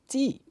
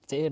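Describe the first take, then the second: First: The letter is said as zee. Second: The letter is said as zed. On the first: This is how native English speakers say it. "the native English speaker saying G" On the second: This is how the speaker's own group says it. "we say that Z"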